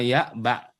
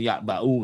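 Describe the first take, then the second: First: The phrase stops without a final u vowel. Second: The phrase ends with a final u vowel. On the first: The speaker calls it right. "Kalau wakof kulma ya ba" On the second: The speaker calls it wrong. "nggak boleh ya ba'u nggak boleh"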